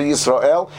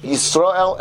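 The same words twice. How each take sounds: First: "Yisrael" with the final -el drawn out; lengthened aleph. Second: "Yisrael" with the r syllable drawn out; lengthened resh. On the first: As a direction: lengthen the last syllable of "Yisrael". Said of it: "you can lengthen the aleph". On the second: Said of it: "you can lengthen the resh". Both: Shown as a demonstration.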